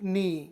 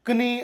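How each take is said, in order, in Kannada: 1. k ಶಬ್ದ ಕೇಳಿಸುವುದಿಲ್ಲ; ಇದು n ನಿಂದ ಶುರುವಾಗುತ್ತದೆ. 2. n ಮೊದಲು k ಶಬ್ದ ಕೇಳಿಸುತ್ತದೆ.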